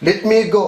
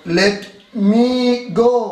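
First: Said in the usual way. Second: Slow, higher, word by word; slow dictation. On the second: Shown as a demonstration. Teacher giving students an example sentence, slow dictation. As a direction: stretch each word for writing down.

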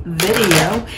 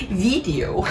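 First: Said in the usual way. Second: "video" with a long, tense "ee": VEE-dee-o; playful mispronunciation. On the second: Shown as a demonstration. Playful repeat, exaggerated vowel.

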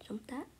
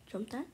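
The two takes are said the same way.

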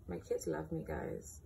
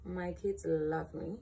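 First: A sudden put-on low, deep voice; deep boastful joke voice; mock deep voice. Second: Said in the usual way. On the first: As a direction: drop the voice way down like a proud dad.

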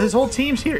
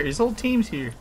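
First: High, alarmed cry; shocked at the whole team. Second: Said in the usual way. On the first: Real, not acted. Sees whole enemy team.

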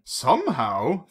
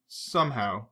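First: Slow, drawn-out wry question; wry musing. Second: Said in the usual way. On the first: A narrator's reading. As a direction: savour the double meaning. Bond muses on the word.

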